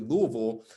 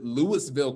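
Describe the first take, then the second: First: The name is said clipped, with fewer sounds. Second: The name is said fully, as it is spelled. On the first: This is how the name is actually said. "but it's actually" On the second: This is the speaker's personal preference. "I like to pronounce it"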